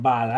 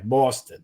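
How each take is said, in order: First: "Boston" with a short ah vowel, the way it's mocked; the other Boston. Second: "Boston" said with a broad aw vowel, Jersey style. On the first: Host contrasts the other "Boston" for co-host, short ah. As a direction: say "Boston" with a short ah, not Jersey. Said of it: "you're saying it incorrectly". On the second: Host shows co-host his Jersey "Boston", broad aw. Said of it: "I'm saying it the Jersey way". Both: Shown as a demonstration.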